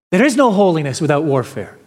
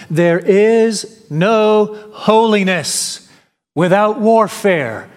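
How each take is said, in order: First: Fast, brisk repeat of the line; quick restatement. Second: Slow, weighty reading, each word set apart; slow solemn quote. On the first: Preacher repeating the quote to the congregation, quick and brisk. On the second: Preacher reading J C Ryle's words to the church, slow and solemn. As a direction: lay the quote down slowly and heavily. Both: Shown as a demonstration. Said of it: "he adds the following".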